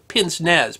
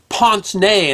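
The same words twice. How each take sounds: First: The word is said with an anglicized pronunciation. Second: The word is said with a French-like pronunciation. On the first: The speaker calls it wrong. "you might have heard them called pince-nez" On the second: The speaker calls it right. "the actual proper pronunciation is pince-nez"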